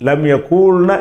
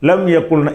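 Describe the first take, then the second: First: The second word has a long vowel. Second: The second word has a short vowel. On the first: The speaker calls it wrong. "என்று சொல்லாமல்" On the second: The speaker calls it right. "இந்த இடத்துலையும் மாற்றுறோம்"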